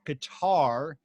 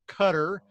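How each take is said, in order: First: It uses the common American pronunciation. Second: It uses the local native pronunciation. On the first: The speaker calls it wrong. "a lot of people in our country mispronounce that Qatar" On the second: The speaker calls it right. "It's really pronounced Qatar"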